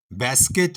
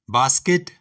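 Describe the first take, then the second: First: Basket with a flat "ae"; flat American vowel in basket. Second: Basket with a broad "aa"; British basket. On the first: Teacher listing the American form of basket, flat "ae". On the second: Teacher listing the British form of basket, broad "aa". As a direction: open British vowel in basket. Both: Shown as a demonstration. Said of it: "इसी तरह".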